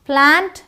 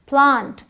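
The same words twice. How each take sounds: First: The vowel is the flat American 'a'. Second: The vowel is the open British 'aa'.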